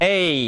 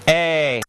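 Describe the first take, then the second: First: The vowel glides upward toward an ee sound. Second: The vowel stays steady without gliding. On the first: "That's the diphthong" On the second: "That's just lowercase e"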